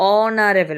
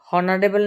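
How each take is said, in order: First: The word begins with a vowel sound. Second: The word begins with an h sound. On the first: The speaker calls it right. "উচ্চারণটা কি হচ্ছে অনারেবল মানে ওর উচ্চারণ হচ্ছে" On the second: The speaker calls it wrong. "হনারেবল না কিন্তু"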